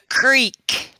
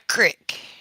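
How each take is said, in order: First: The vowel is a long 'ee' sound. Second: The vowel is a short 'i' sound. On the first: The speaker calls it right. "It's a creek" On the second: The speaker calls it wrong. "not a crick"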